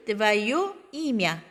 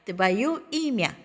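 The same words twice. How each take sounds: First: Very slow, твоё stressed; slow model reading. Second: Very slow, stress falling on имя; slow model repeat. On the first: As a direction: say твоё имя slowly for the class. (천천히 또박또박) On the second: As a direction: repeat твоё имя slowly. (천천히 반복) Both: Shown as a demonstration. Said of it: "너의 이름".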